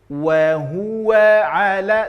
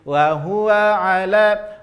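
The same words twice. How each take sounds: First: The w is said with strong lip rounding. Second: The w is said with weak lip rounding. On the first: The speaker calls it right. "tapi wa huwa ala, senyum monyongkan" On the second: The speaker calls it wrong. "maka salah kalau kita hanya penyebutannya menjadi wa huwa ala"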